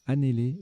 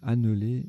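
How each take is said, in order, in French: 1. La voyelle de la deuxième syllabe est un é fermé. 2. La voyelle de la deuxième syllabe est un e muet. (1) "c'est l'inverse, c'est" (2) "je les ai mal prononcés tout à l'heure, j'ai dit"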